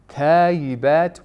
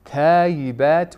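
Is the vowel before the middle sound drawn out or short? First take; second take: short; short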